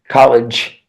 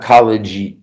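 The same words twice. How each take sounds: First: The word ends with a voiceless ch-like sound. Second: The word ends with a voiced j sound.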